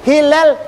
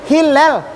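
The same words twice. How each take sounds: Both takes have the same delivery.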